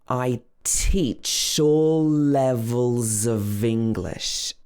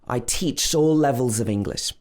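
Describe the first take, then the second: First: The sentence is spoken slowly. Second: The sentence is spoken at normal speed. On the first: "Let's say it one more time" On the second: "just normal speed"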